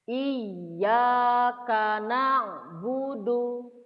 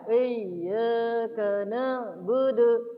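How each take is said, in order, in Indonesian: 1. Setiap vokal dibuka penuh dan terdengar jelas terpisah. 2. Semua vokalnya terdengar samar, seperti huruf e yang kabur. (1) "Saya contohkan dulu" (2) "Itu eh semua. Atau samar-samar semua"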